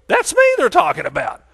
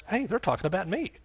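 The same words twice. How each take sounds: First: High, loud acted exclamation; excited recognition. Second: Soft acted double take, rising on ME; dawning realization. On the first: Award guest hears his details named, acted excitement. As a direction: burst out as if you just won. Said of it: "and you go". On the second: Award guest realizes they mean him, soft surprise. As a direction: quietly act out suddenly noticing. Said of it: "all of a sudden you realize".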